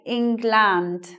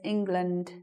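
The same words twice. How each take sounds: First: The second syllable has a full, clear vowel. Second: The second syllable has a reduced schwa vowel. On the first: The speaker calls it wrong. "they'll say England" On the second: The speaker calls it right. "actually it sounds like this"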